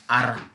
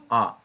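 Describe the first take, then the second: First: "R" said as "ara", rolled with two vowels; "R" pronounced "a-ra" with a tapped r; Zimbabwean R. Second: "R" said as a short plain "ah"; "R" as a single open "ah" sound; other people's R. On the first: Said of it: "I come from Zimbabwe, we call it R". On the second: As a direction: say "R" the way some people do, a clipped "ah". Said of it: "some people call it R". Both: Shown as a demonstration.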